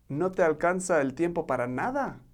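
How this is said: It is said as a question, rising at the end.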